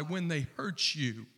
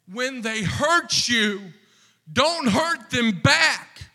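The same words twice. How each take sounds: First: Said in the usual way. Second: Rising plea. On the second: Shown as a demonstration. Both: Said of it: "repeated phrase, second louder".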